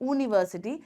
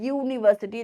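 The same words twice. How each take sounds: First: The word begins with a plain vowel. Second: The word begins with a y sound. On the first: The speaker calls it wrong. "and not university" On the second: The speaker calls it right. "there is a y over there"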